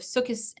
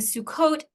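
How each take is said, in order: First: It is said the older Ashkenazi American way. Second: It is said the modern Israeli Hebrew way. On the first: This is the older traditional American pronunciation. "instead of Sukkos" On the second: This follows modern Israeli norms. "saying Sukkot ... instead of"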